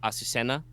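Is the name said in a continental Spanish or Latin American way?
Latin American. It is said with a Latin American S sound. "the Latin American pronunciation is with an S sound"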